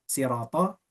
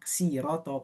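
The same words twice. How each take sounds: First: The word begins with an emphatic, heavy s. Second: The word begins with a plain, light s. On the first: "Ada yang bilang" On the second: "ada yang bilang siroto pakai sin"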